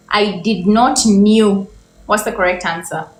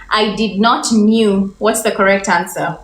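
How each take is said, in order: Both takes have the same delivery.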